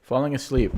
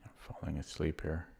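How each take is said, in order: First: Louder, higher exasperated groan. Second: Drowsy, low and soft; sleepy mumble, drifting off; nodding off. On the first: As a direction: shake yourself awake, loudly. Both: Real, not acted.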